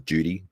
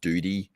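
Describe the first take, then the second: First: The first sound is a soft J-like sound. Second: The first sound is a plain D, like doody. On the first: This is the Australian way of saying it. "It's slightly like a J sound" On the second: This is the American way of saying it. "the way the Americans say it, duty sounds like duty, like D O O D E E"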